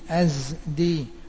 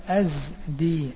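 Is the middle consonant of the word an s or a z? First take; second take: z; z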